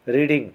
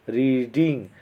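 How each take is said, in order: First: Said in the usual way. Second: "रीडिंग" drawn out in two beats, री-डिंग; split into syllables. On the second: Shown as a demonstration. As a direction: separate both syllables of "रीडिंग". ("रीडिंग" को दो हिस्सों में खींचकर, री-डिंग) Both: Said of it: "टू syllables हैं".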